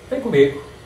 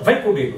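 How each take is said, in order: First: Even stress on both words, same volume. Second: Loud, with strong stress on the verb. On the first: It is a simple invitation. "Se eu disser as duas palavras iguais sem mudar o, o volume" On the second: It is an order. "Se eu acentuar o verbo e elevar a voz"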